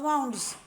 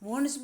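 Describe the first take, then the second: First: The vowel sounds like 'ow' in 'cow'. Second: The vowel sounds like 'oo' in 'moon'. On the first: This is how people commonly say it. "આપણે વાઉન્ડ્સ બોલીએ છીએ" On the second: This is how it is actually pronounced. "એકચ્યુઅલમાં વુન્ડ બોલાય"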